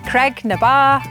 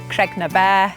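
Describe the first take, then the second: First: The last word is said like 'bar'. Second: The last word is said like 'bear'. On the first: This is how the name is said nowadays. "The traditional pronunciation of this place name has changed over time to become Creg na Bar" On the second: This is the older form meaning rock of the cows. "Creg na bear, rock of the cows"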